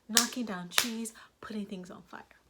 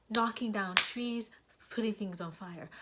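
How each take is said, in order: The two takes are said the same way.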